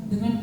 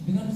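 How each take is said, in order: Both takes have the same delivery.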